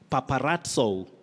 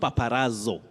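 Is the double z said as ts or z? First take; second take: ts; z. First: The double z sounds like ts. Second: The double z sounds like plain z. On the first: The speaker calls it right. "this Z takes the sounding ts" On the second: The speaker calls it wrong.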